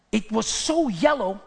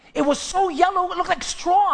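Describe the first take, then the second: First: Said in the usual way. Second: Higher, animated retelling; emphatic. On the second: Real, not acted. Pastor telling Nadia about the neighbor's grass, animated. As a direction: stress SO and paint the straw. Repeats line louder.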